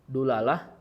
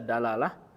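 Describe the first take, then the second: First: The first vowel is a u sound. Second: The first vowel is an a sound.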